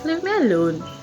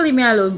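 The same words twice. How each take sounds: First: The tone is warm and friendly. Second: The tone is harsh and offensive. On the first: The listener will not take it as disrespect. The speaker calls it right. "the tone of voice is friendly" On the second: The listener may take it as disrespect. The speaker calls it wrong. "That sound offensive"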